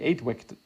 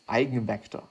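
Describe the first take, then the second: First: The first part sounds like English 'eight'. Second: The first part sounds like German 'eigen'. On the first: The speaker calls it wrong. "it's not eight vector" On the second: The speaker calls it right. "I'm just gonna pronounce it in a German way"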